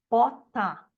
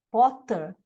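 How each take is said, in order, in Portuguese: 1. A vogal final se abre em direção a um A. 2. A vogal final é curta e neutra.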